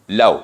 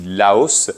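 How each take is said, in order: First: The word ends on a vowel, without S. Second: The word ends with an audible S sound. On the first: This is how the name is said in the country itself. "On ne prononce pas le S final" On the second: This is the French way of saying the name. "je dis Laos"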